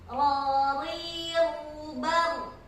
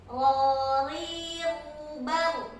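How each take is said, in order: The two takes are said the same way.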